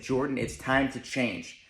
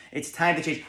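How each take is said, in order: First: Slow self-talk. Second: Said in the usual way. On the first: Retold or imitated. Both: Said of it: "I looked at myself and I said".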